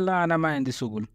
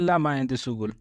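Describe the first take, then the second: First: An extra long 'aa' vowel follows 'la'. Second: No extra vowel is added after 'la'. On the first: The speaker calls it wrong. "कुछ लोग इसमें आना लगाते हैं" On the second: The speaker calls it right. "आप लोग सिर्फ ऐसे बोलेंगे"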